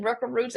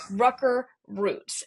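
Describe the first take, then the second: First: Said in the usual way. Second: "Rucker Roots" said slowly, each word weighted with a fall; announcer-style brand stress on "Rucker Roots"; brand name stressed. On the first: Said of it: "you can find Rucker Roots". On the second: Shown as a demonstration. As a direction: spell out "Rucker Roots" slowly like a product plug.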